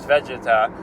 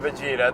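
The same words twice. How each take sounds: First: The name begins like the word vegetable. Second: The name does not begin like vegetable. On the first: It matches the original Japanese more closely. "Vegeta is more accurate because it sounds more like vegetable" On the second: It is the familiar version people are used to. "because we're used to Vegeta"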